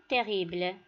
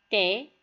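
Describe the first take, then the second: First: Said in the usual way. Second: "Terrible" in three separate beats, long pauses between; split into syllables. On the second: Shown as a demonstration. Teacher cutting the word for learners, "Terrible" syllable by syllable. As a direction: say "Terrible" as te, rri, ble, each apart. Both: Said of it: "passons le couper en syllabes".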